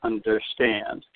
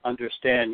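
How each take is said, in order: First: Slow Understand with the last syllable stressed; drawn-out un-der-STAND, the end hit hard; Understand, da-da-DUM, slowly. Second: Understand with the last syllable stressed; un-der-STAND, the first two light and the end hit hard; Understand, da-da-DUM. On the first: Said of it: "two unstressed syllables followed by a third". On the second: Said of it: "example of that is simply the word understand". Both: Shown as a demonstration.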